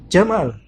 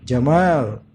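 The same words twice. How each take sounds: First: The second vowel is kept short. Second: The second vowel is held long. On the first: It means camel. "kalau mad jadi dihilangkan" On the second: It means beauty. "Jamal dengan mad"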